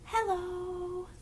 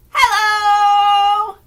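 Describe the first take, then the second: First: Soft, breathy hello; quiet hello. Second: Big shouted hello, much louder. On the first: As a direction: say it as quietly as you can. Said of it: "as quiet as we can". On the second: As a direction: call it out as loud as you can. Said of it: "as loud as we can". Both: Shown as a demonstration.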